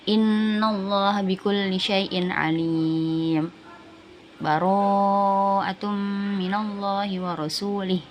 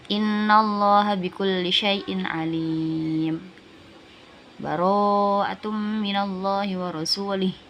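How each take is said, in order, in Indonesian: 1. Berjeda sebentar di antara ayat tanpa bernafas. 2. Berhenti penuh dengan bernafas di antara ayat. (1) "Sama kayak waqaf, bedanya cuma tidak bernafas" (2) "Jadi kalau dibaca waqaf"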